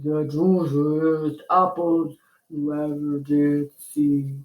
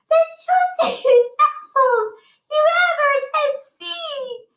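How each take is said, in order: First: It is said in a low voice. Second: It is said in a high voice.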